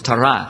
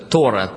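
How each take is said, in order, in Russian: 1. Ударение на последнем слоге. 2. Ударение на первом слоге. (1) "По-еврейски правильное ударение на последний слог" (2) "Русские называют ее Тора"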